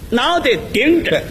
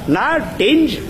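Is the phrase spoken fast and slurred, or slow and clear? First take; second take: slow clear; fast slurred. First: It is spoken slowly with each syllable clear. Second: It is spoken fast with the syllables slurred.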